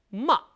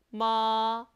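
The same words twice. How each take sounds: First: The pitch hits hard and drops briefly. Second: The pitch stays high and long. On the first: "사성은 짧게 첫음을 탁 쳐줍니다" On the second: "일성은 높은 음을 길게 빼줍니다"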